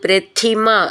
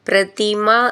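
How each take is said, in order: First: The middle consonant is said with strong aspiration. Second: The middle consonant is said without aspiration. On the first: The speaker calls it right. "ഇത് പ്രഥിമ എന്നാണ്" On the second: The speaker calls it wrong. "പ്രതിമ എന്നല്ല"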